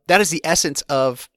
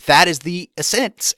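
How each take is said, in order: First: Said in the usual way. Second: "essence" stressed on its second syllable, es-SENCE; stress on wrong syllable. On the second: Real, not acted. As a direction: slip the emphasis onto the end of "essence". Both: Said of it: "put the emphasis on the wrong syllable".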